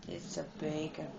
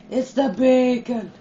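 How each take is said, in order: First: Much softer and lower, "the" leaned on; quiet repeat. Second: Loud, punchy line with BACON hit hard. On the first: Gamer repeating his line quietly under his breath. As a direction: mumble "It's the bacon" to yourself. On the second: Gamer announcing the bacon to the room, loud and punchy. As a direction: bark out "It's the bacon" at the screen. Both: Shown as a demonstration.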